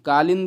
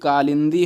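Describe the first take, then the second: First: The word ends on a consonant, final vowel dropped. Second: The word ends with a long final vowel. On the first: The speaker calls it wrong. "कालिंद नहीं" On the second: The speaker calls it right. "बल्कि कालिंदी होता है"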